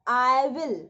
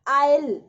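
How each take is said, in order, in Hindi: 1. दो अलग-अलग पूरे शब्द बोले जाते हैं। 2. शब्दों को जोड़कर एक ही अक्षर की तरह बोला जाता है। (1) "आई विल होता है ये" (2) "स्पीड में बोलेंगे आइल"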